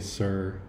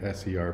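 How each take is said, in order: First: It is said as one word. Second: It is spelled out letter by letter. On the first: The speaker calls it wrong. "do not say sir" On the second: The speaker calls it right. "You need to say S-E-R"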